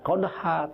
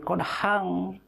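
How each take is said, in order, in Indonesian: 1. Kata ini berakhir pada vokal terbuka yang panjang. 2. Kata ini berakhir dengan bunyi sengau ng. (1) "Kenapa qadha? Karena berhenti wakof" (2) "Tapi kalau diteruskan, bukan qadha, tapi qadhang. Karena ikhfa"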